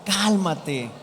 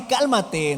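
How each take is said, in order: First: Lower, settled "Cálmate"; composed "Cálmate" with a falling end; right way, calming. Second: "Cálmate" with the usual pitch and push; wrong way, not calm. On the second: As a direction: toss out "Cálmate" without any soothing. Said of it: "No, no así". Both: Shown as a demonstration.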